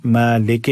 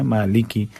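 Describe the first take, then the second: First: मालिक said as "maa-le-ke"; wrong e vowels. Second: मालिकि said as "maa-li-ki"; clear i vowels. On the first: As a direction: turn both i vowels in मालिक to e. (मालिक को "मालेके" पढ़ना) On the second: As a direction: keep both short i sounds in मालिकि. (मालिकि में साफ़ ज़ेर) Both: Shown as a demonstration. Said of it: "मालिक नहीं पढ़ना है".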